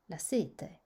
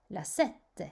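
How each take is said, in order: First: Sete with a long E and one short T; single consonant. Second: Sette with a held double T; doubled consonant. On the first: (« sete » avec un seul t bref) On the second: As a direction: pause on the TT in sette before releasing it. (« sette » avec un double t prolongé) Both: Shown as a demonstration. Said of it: "il faut prolonger".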